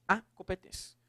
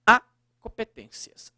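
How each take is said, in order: First: Said in the usual way. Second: "a" punched louder, no crase; teacher hits the little word "a" to show no accent; stress on the a. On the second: Shown as a demonstration. Teacher showing students the bare "a", with the "a" stressed. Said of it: "ou no caso, procurou dar primazia".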